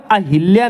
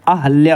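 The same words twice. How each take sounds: First: अहिल्या with i after h, "a-hil-ya"; wrong pronunciation. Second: अहल्या with a after h, "a-hal-ya"; correct pronunciation. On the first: Teacher showing the mistake, "hil" heard in अहिल्या. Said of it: "अहिल्या नहीं होता है". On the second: Teacher correcting students, "hal" heard in अहल्या. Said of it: "अहल्या होता है". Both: Shown as a demonstration.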